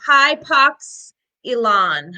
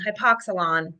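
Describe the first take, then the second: First: Hypox-elon said as hy-POX-eh-lon, wrong; hypox-elon with a wrong elon ending; mispronounced. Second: Hypoxylon said hy-POX-ih-lon, quietly corrected; corrected pronunciation. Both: Real, not acted. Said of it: "I didn't know how to pronounce that".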